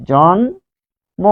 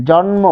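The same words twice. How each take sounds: First: "জন্ম" very slow, jon... mo; syllable by syllable. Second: Said in the usual way. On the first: Shown as a demonstration. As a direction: stretch "জন্ম" into two separate syllables, jon and mo. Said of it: "পরিবর্তন হয়ে গিয়েছে". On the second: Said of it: "যে আরো উচ্চারণ".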